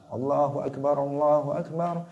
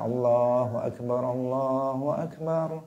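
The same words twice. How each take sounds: First: It is said quickly without pausing. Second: It is said slowly with a pause.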